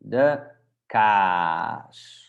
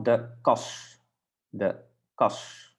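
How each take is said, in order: First: Kaas with a hugely stretched aa; overdone long A. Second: Kos with a short, quickly closed vowel. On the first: Teacher models for repetition, exaggerated long kaas. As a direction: pause after de, then draw out kaas. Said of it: "try to repeat after me". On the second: Teacher models the short vowel for learners, very short kos. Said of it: "Very short". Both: Shown as a demonstration.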